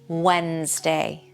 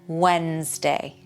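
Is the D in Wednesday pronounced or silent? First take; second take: silent; silent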